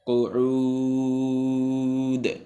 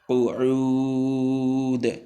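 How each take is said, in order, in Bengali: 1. শব্দটি একটি খালি শেষ ব্যঞ্জনে শেষ হয়। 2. শব্দটি একটি খালি শেষ ব্যঞ্জনে শেষ হয়।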